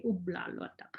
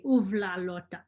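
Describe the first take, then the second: First: "ubla lotak" with a b sound in ubla; Shishmaref B pronunciation. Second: "uvla lotak" with a v sound in uvla; Inupiaq V pronunciation. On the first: Teacher showing her Shishmaref dialect, "ubla lotak" with a b. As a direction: say "ubla lotak" with a hard b before the l. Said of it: "we say". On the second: Teacher showing how most of the state says it, "uvla lotak" with a v. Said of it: "people say". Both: Shown as a demonstration.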